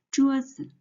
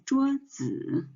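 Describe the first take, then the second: First: 桌子 with full 桌 and short, light 子; neutral-tone 子 in 桌子; stress on first syllable. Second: 桌子 with a drawn-out third-tone 子; wrong-way demo of 桌子, 子 fully stressed and long; full third tone 子. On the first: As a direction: lean on 桌, let 子 go toneless. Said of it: "we put the stress on the first word". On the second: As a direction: give 子 in 桌子 its full dipping third tone. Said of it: "the original pronunciation is the third tone z". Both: Shown as a demonstration.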